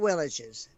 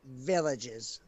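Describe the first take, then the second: First: It starts without the v sound of 'very'. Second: It starts with the v sound of 'very'. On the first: The speaker calls it wrong. "Not villages" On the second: The speaker calls it right. "Like very"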